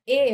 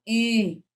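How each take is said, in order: First: Plain "e" with no nasalization; oral vowel. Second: "em" as a nasal "e"; nasalized vowel. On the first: Teacher contrasting vowels for nasalization, oral "e". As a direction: say "e" purely through the mouth. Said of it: "Em vez de falar". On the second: Teacher showing what the tilde does, nasalized "em". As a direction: send the vowel of "em" through the nose. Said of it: "Isso é nasalização". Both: Shown as a demonstration.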